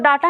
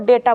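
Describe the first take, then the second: First: The first vowel sounds like 'ah'. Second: The first vowel sounds like 'ay'. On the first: The speaker calls it wrong. "इसको डाटा नहीं बोलते हैं" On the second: The speaker calls it right. "इसको डेटा बोलते हैं"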